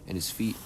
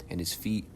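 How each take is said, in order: Both takes have the same delivery.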